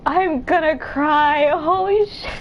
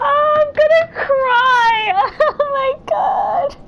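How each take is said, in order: First: Slow, drawn-out tearful words; on the verge of tears. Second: High, loud, slow sobbing wail; real crying. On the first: Player moved by a game line, near tears. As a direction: hold back the cry, stretching the words. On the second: Player overcome by a game character's line, crying. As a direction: wail it out through tears and laughter. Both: Real, not acted. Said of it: "I'm actually crying".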